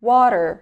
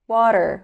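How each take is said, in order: First: It is said with an American accent. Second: The same.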